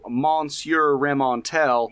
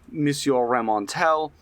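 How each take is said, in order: First: The name is said in a Southern American accent. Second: The name is said with French pronunciation. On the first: "done in the most Southern American accent" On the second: "actually pronouncing French names with the French pronunciation"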